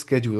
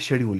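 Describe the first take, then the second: First: The word begins with an sk sound. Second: The word begins with a sh sound. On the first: This is the British pronunciation. "Britishers बोलते हैं स्केड्यूल" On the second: This is the American pronunciation. "American बोलते हैं शेड्यूल शायद"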